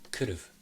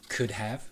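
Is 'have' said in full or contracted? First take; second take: contracted; full. First: Have is reduced, sounding like could've. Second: Have is said in full with a clear h.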